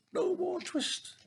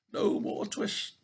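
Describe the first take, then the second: First: Very high, slow squeak; twittering mouse shout. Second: Slow, whispered, loud mouse cry; twittering mouse shout. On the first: Mice shutting out Simpkin, high slow squeak. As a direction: squeal it like tiny mice in triumph. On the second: Mice shutting out Simpkin, whispered slow cry. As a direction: hiss it out like a crowd of tiny mice. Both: Acted. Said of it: "shout at once in little twittering voices".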